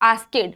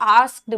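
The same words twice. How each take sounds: First: It is pronounced the way many Indian speakers say it. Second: It is pronounced the way native English speakers say it. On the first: The speaker calls it wrong. "हमारे यहाँ पर आप mostly लोगों को बोलते हुए सुनाओगे" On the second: The speaker calls it right. "वहां के जो लोग हैं ना वो asked बोलते हैं"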